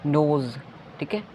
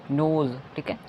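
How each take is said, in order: Both takes have the same delivery.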